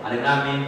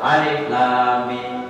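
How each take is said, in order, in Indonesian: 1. Dibaca dengan cepat dan terburu-buru. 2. Dibaca dengan pelan dan hati-hati. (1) "Begitu saya baca" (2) "coba baca pelan-pelan"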